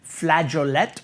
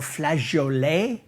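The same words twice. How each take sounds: First: It is pronounced the plain English way. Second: It is pronounced the more French way.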